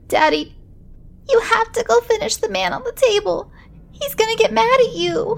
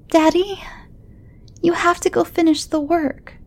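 First: Put-on high, desperate child voice; a panicked kid pleading; frantic little boy. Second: Put-on high, pleading child on the edge of tears; a scared kid begging his dad; upset little boy. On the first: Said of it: "burst into hysterics". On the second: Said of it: "lower lip was beginning to quiver".

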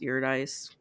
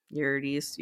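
First: Eurydice ending in "-dice"; alternative pronunciation. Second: Eurydice ending in "-dees"; pronunciation attempt. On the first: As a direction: say Eurydice as "YUR-dice", rhyming with ice. Second try at the name. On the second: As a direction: say Eurydice as "YUR-dees", unsure. Tries out the name's pronunciation. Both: Shown as a demonstration.

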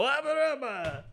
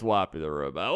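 First: High synthetic swooping robot cry. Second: Said in the usual way. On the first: Acted. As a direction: squeal the name like a machine starting up. Robot character announces itself.

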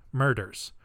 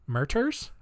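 First: Murders. with a firm falling tune, clear d; settled falling tune. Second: Murders? with a rising, doubtful tune; questioning tune. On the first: Host confirming the word to listeners, firm falling statement. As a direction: land Murders. as a final answer. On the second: Host checking his own pronunciation of the word, rising question. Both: Shown as a demonstration.

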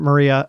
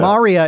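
First: "Maria" with a reduced "muh" first syllable; pronounced as spelt. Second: "Maria" with an open "ah" in the first syllable; pronounced as on the show. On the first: Host showing how it is spelt, "Maria" as muh-REE-a. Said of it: "they spell it". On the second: Host showing how they pronounce it, "Maria" as MAH-ree-a. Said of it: "is the way they pronounce it". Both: Shown as a demonstration.

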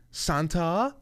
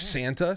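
First: High, rising French-style "san-TAH?"; French accent. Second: Said in the usual way. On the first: Retold or imitated. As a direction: imitate a little girl putting on French. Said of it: "with this French accent". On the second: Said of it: "She goes".

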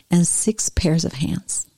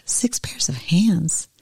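First: Said in the usual way. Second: "Six pairs of hands?" slow and breathy in disbelief; the angel can't believe "hands", drawn-out and hushed; incredulous question. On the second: Acted. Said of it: "The angel shook her head slowly and said".

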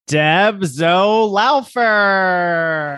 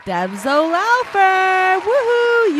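First: Slow, drawn-out winner reveal; winner announcement. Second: High, slow cheering; excited. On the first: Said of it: "And the winner is?". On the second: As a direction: celebrate the winner. Celebrating the raffle winner. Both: Acted.

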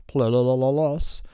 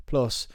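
First: PLUS babbled with a run of repeated L sounds; garbled PLUS. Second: Said in the usual way. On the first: Pretend. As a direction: stumble playfully through PLUS as "pluh-luh-luh-lus". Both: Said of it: "as Charlie doesn't like to say".

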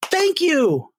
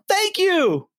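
First: High breathy thank you; a light [name] thank you; imitating [name]. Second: A light [name] thank you; imitating [name]. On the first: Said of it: "he goes". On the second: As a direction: echo the singer's thank you. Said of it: "And he goes".

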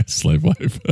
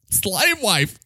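First: Said in the usual way. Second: A higher, theatrical declaration of slave wife; high character voice. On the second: Acted.

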